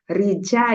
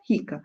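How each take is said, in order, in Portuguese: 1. A consoante do meio soa como 'j'. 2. A consoante do meio soa como 'k'. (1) "Eu tenho que ler como o idioma turco" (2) "Se fosse no português, seria rica"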